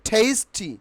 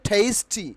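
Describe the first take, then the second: The two takes are said the same way.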